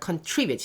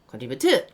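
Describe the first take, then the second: First: The stress is on the second syllable. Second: The stress is not on the second syllable. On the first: The speaker calls it right. "이음절에 있어요" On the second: The speaker calls it wrong. "이상하다"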